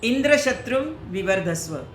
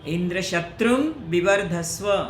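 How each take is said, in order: First: Indra is stressed and shatrum is soft. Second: Indra is soft and shatrum is stressed. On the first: The speaker calls it wrong. "उन्होंने बोला" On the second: The speaker calls it right. "Indra धीरे बोलना था उनको और शत्रुम पे जोर देना था"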